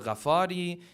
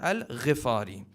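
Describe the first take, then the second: First: The vowel after Gh sounds like a. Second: The vowel after Gh sounds like i. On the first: The speaker calls it wrong. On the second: The speaker calls it right. "The correct pronunciation is"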